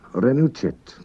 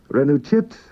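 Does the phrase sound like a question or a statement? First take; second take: statement; question. First: It is said with plain statement intonation. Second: It is said with questioning intonation. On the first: It states that you came. "You came" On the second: It asks whether you came. "you simply change your tone of voice"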